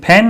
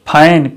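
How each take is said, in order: First: The vowel is a flat 'ae' sound. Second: The vowel is the diphthong 'ai'. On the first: The speaker calls it wrong. "फैन नहीं" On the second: The speaker calls it right. "ए का उच्चारण आई के रूप में"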